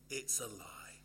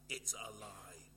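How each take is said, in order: First: Whisper. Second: Said in the usual way. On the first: Shown as a demonstration. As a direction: drop to a confiding whisper. Repeated phrase, whispered.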